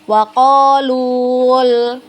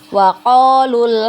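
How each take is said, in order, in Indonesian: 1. Vokal pada lu dibaca panjang. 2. Vokal pada lu dibaca pendek. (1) "jangan dibaca panjang. Wa qalul. Nah, salah ya" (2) "tidak panjang ketika kita wasolkan"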